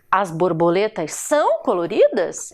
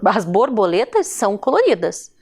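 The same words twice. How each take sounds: First: "coloridas" lifted into a question; question intonation. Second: "coloridas" settles down at the end; statement intonation. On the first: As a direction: question it, lifting "são" and "coloridas". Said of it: "é um questionamento". (questionamento, com "coloridas" em tom de pergunta) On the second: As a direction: affirm it, falling on "coloridas". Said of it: "eu estou afirmando". (afirmação, com "coloridas" descendo no final) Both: Shown as a demonstration.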